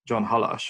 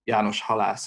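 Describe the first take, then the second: First: The name is said with English sounds. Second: The name is said with Hungarian sounds.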